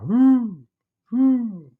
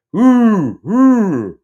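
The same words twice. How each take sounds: First: Distant owl hoot. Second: High, loud owl hoot; imitated owl call, pitched up and loud; louder owl hoot. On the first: Retold or imitated. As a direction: imitate an owl hooting far off. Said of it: "it's way off in the distance". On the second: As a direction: hoot loudly like an owl coming closer. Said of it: "and it's louder".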